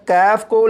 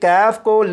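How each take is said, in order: Both takes have the same delivery.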